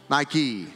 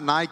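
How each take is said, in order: First: The word is said as two syllables. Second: The word is said as one syllable. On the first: The speaker calls it right. "it's what? Nike" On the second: The speaker calls it wrong. "It's not Nike"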